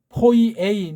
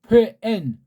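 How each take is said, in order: First: The vowel pair is split into separate sounds. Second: The vowel pair is merged into one sound. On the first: The speaker calls it wrong. "이건 이제 엉터리 발음이에요" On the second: The speaker calls it right. "이건 한 번에 발음해야 돼요"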